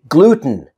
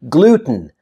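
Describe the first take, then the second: The two takes are said the same way.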